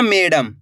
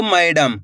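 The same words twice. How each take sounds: First: "मैडम" said as "मेडम", with a pure e; wrong e pronunciation. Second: "मैडम" with an open ai glide in the first syllable; correct ai pronunciation. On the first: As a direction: say "मैडम" as may-dam, no ai glide. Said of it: "ऐसे नहीं पढ़ना मैडम". ("मैडम" को ए स्वर से "मेडम") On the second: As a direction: say "मैडम" as mai-dam. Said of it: "इसी तरीके से पढ़ना आपको मैडम". ("मैडम" में स्पष्ट ऐ स्वर) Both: Shown as a demonstration.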